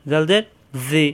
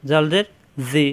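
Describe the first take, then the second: No difference in how they are said.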